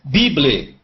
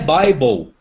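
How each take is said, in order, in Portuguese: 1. Ela é lida com sons do português brasileiro. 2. Ela é pronunciada com sons do inglês. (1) "É o que o brasileiro vai pronunciar" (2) "A pronúncia é Bible"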